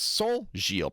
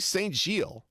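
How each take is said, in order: First: It uses an 'on'-like nasal vowel. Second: It is said with English sounds, not nasal. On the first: "that's not how you say it in French" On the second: "Just do it English"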